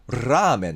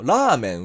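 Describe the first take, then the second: First: The first consonant is a rolled trill. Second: The first consonant is a single light tap. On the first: "トリルの巻き舌のラ行にしたら" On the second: "日本語のラーメン"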